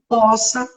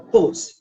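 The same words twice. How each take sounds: First: The first vowel of poça is open. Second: The first vowel of poça is closed. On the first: The speaker calls it wrong. "Gramaticalmente não é poça" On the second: The speaker calls it right. "O som é fechado"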